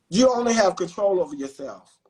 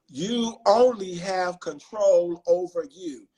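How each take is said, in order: First: It is said at a normal pace. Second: It is said slowly.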